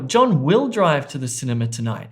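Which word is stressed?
will. The stress falls on the word will. He has changed his mind and will now go. "He's changed his mind"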